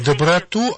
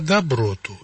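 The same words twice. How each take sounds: First: The stress falls on the last syllable. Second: The stress falls on the middle syllable. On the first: It means kindness, pity for another. The speaker calls it wrong. "Не доброту" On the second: It means spiritual beauty. The speaker calls it right. "а доброту"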